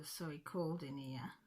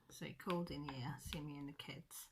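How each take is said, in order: First: Said in the usual way. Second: Breathy unvoiced whisper, much softer. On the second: Real, not acted. Telling viewers about Dad's visit, whispered. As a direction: drop to a hushed whisper. Repeats line, now whispered.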